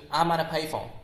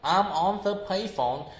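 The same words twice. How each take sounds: First: "I'm on a payphone" run together, light A; shortened A melting into ON; reduced, linked form. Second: "I'm on THE payphone" with each word separate; unreduced THE, words kept apart; full clear THE. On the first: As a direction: link ON A into one quick unit. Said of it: "was turned into". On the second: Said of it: "you will realize something like". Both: Shown as a demonstration.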